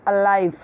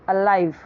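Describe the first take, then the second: No difference in how they are said.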